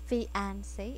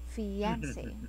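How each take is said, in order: First: The 'ia' is said without a 'y' glide. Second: The 'ia' is said with a clear 'y' glide. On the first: The speaker calls it wrong. "not fiance" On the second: The speaker calls it right. "it's fiance"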